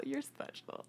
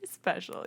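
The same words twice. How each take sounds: First: High slurred whisper; drunk friend voice. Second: Said in the usual way. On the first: Retold or imitated. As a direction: coo it like a drunk friend at a bar. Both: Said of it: "Sound like the drunk friend at the bar".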